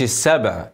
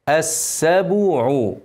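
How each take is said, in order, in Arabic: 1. لا توجد حركة بعد الباء. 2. بعد الباء ضمة. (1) "لا مش السبع" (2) "الباء عليها ضمة"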